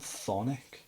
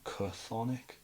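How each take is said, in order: First: The name starts with a plain th sound. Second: The name starts with a k sound before th. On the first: The speaker calls it right. "they're called Thonic, even though it's got a C H" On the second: The speaker calls it wrong. "People call them like Chthonic"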